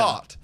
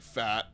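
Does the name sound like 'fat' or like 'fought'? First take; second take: fought; fat. First: The name rhymes with the word caught. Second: The name rhymes with the word cat. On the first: The speaker calls it right. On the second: The speaker calls it wrong.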